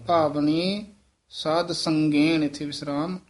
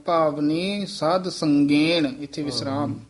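No difference in how they are said.

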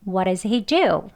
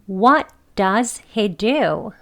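First: The "d" of "does" is flapped, like "what is". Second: The word "does" is pronounced fully and clearly. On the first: The speaker is talking fast. "D를 디귿 발음하지 않고 네, 리을 발음해야죠. ... What is 이렇게 발음되는 거예요. 빨리 말하면요" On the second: The speaker is talking slowly and carefully. "천천히 명확하게 발음을 하는 경우 does 이렇게 strong한 발음으로 해서 해보겠습니다"

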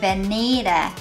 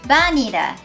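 First: The middle syllable is stressed. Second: The middle syllable is not stressed. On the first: The speaker calls it right. "にのところにアクセントを置きます" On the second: The speaker calls it wrong. "バニラではなく"

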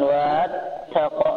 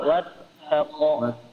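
First: The opening vowel is drawn out long. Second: The opening vowel is kept short. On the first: The speaker calls it wrong. "bukan wat taqo" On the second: The speaker calls it right. "maka mat tabi'inya menjadi hilang"

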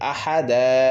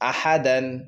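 First: The word ends with a lengthened a, no n. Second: The word ends with a short a and n. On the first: The reader stops at the end of the verse. "এক জবর ছেড়ে দিবেন এবং একটু টান দিয়ে পড়বেন" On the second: The reader continues without stopping. "যেমন আহাদান"

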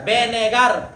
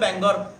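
First: The word is said with three syllables. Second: The word is said with two syllables. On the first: This is the exact pronunciation. The speaker calls it right. "এটা হচ্ছে বেনেগার" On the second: This is how some people used to say it. The speaker calls it wrong. "কে বলতো ব্যাঙ্গর"

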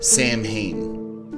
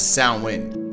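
First: The name is given an anglicized, spelled-out pronunciation. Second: The name is given its Manx Gaelic pronunciation. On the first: This is the popular film-era version of the name. "if you were born in the 80s and a fan of Ghostbusters" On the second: This is the name as said on the Isle of Man. "it is the Manx Gaelic pronunciation that is"

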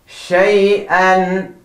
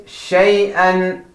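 Both takes have the same delivery.

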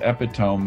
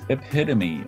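First: The word ends without an 'ee' sound. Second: The word ends with an 'ee' sound. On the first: The speaker calls it wrong. "My son thought it was epitome because he'd never heard it pronounced" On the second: The speaker calls it right. "but it's epitome, ... It has a long E or A sound at the end"

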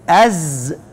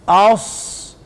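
First: The consonant is a voiced Z. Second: The consonant is a voiceless emphatic S. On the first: "لو هي زي هتبقى ايه؟" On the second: "لو هي صاد هتبقى ايه؟"

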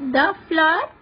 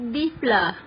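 First: The word 'the' has a short 'uh' vowel. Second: The word 'the' has a long 'ee' vowel. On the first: The speaker calls it right. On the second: The speaker calls it wrong.

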